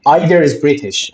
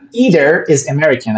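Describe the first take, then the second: First: EYE-ther, like "eye"; British either. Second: EE-ther, long ee; American either. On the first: Teacher showing the British "Either" to a student. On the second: Teacher showing the American "either" to a student. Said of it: "either is American, I think". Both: Shown as a demonstration.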